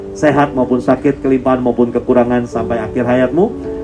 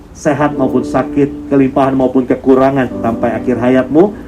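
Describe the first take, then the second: Both takes have the same delivery.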